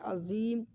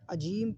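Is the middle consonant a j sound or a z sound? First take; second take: z sound; j sound. First: The middle consonant is a z-like sound. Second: The middle consonant is a j sound. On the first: The word means great or majestic. The speaker calls it right. "अज़ीम की ज़ा को खूब एहतियात से अदा करें" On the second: The word means mute. The speaker calls it wrong. "कुछ लोग ज़ा को जीम अदा करते हैं"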